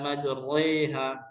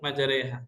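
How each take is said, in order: First: The r is heavy with a full a vowel. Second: The r is light with an e-like vowel. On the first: The speaker calls it wrong. "Tidak boleh dibaca tafkhim seperti majriha" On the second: The speaker calls it right. "wajib dibaca tarqiq"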